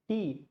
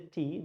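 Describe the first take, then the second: First: The word is said in a Tamil-style accent. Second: The word is said in a neutral accent. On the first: "they say tea" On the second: "people don't say tea"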